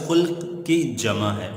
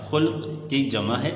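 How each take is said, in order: No difference in how they are said.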